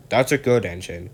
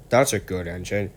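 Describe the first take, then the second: First: Gentle praise to a helpful engine; kindly. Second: Said in the usual way. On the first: Acted. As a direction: pat him on the back with words. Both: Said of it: "said the Fat Controller kindly".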